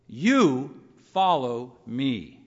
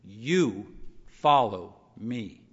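First: Very slow "You follow me", "You" hit hard; solemn, deliberate charge; stress on You. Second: "You" set apart, then a slow "follow me"; emphatic personal command; stress on you. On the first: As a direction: draw out "You follow me", punching "You". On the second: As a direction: lean on "You" before "follow me". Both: Shown as a demonstration. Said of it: "He adds a word".

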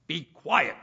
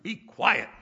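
First: Loud firm command; stern rebuke. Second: Loud, higher firm command; Samuel's rebuke repeated with force; stern rebuke. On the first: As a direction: shut him down firmly. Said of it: "Samuel said to Saul". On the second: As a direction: snap it out again for weight. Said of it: "Boy, isn't it". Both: Retold or imitated.

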